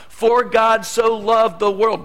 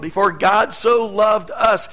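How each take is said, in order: First: Said in the usual way. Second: "so" pushed up loud and rising, slow; stress on so. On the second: Shown as a demonstration. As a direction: personal rewording, emphatic. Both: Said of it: "rewrite John three sixteen".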